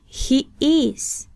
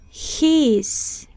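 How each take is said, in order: First: Both words are said fully as two syllables. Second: The words are joined into one short syllable. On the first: "de forma no contraída" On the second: "luego contraeremos"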